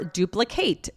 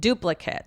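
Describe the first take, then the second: First: The last syllable has a full 'ate' sound. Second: The last syllable has a short 'it' sound. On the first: To make a copy. "It's the verb to make a copy" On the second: A copy. "it's pronounced that short way, right? It"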